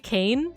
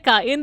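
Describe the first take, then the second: First: The word is said as one syllable, like cane. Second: The word is said as two syllables, ka-in. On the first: This mocks how learners say it. The speaker calls it wrong. "they say cane" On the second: This is the proper way to say it. The speaker calls it right. "they don't say kain"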